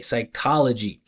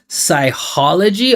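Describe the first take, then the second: First: The 'ch' is said as a K sound. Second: The 'ch' is said as an H sound. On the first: The speaker calls it right. "this C H we, we pronounce as K" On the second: The speaker calls it wrong. "especially when he adds that H sound"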